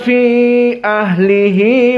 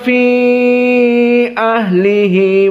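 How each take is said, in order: First: The vowel of 'fi' is held short. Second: The vowel of 'fi' is held medium length. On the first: "kelompok yang mukhtasar ... sama seperti mat tabi'i" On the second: "yang mutawassit"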